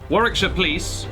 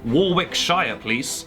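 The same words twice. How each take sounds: First: It is said in a plain British accent. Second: It is said in an imitated American accent.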